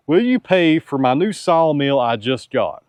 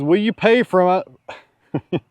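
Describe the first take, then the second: First: Laughing through the quoted question; giggling reread of the viewer's ask. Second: High, slow mock-pleading voice; lightly voiced pleading viewer; mock asker voice. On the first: Retold or imitated. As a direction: crack up while rereading it. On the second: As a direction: drag it out like a hopeful buyer asking. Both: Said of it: "his question is".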